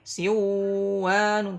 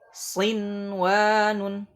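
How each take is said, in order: First: The n sound is merged into the w. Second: The n sound is pronounced clearly before w. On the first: The speaker calls it wrong. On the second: The speaker calls it right.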